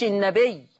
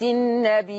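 First: Said in the usual way. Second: النبي with a drawn-out final ī cut by a glottal stop; النبي chanted on a held ī ending in hamza; hamza added. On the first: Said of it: "ما بقتش". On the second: Shown as a demonstration. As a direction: stretch the last vowel of النبي and close it with a hamza. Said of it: "فلما حط لها همزة ارجعوا بالذاكرة معي".

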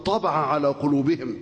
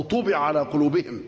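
First: طبع said taba'a, with a-vowels; active-voice reading. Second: طبع said tubi'a, u then i; passive-voice reading. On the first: Active reading set against passive. (طبع بفتح الطاء والباء، مبني للمعلوم) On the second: Passive alternative after "or. (طبع بضم الطاء وكسر الباء، مبني للمجهول) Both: Shown as a demonstration.

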